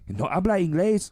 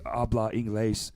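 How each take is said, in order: First: It is said in the dad's put-on accent. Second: It is said plainly, without a put-on accent.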